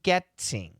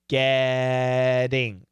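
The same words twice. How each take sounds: First: The T is a crisp, released T sound. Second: The T is a quick flap like D. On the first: "proper English, getting, getting, with a beautiful T sound" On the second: "to a flap T, and it's going to sound like getting ... Almost like a D"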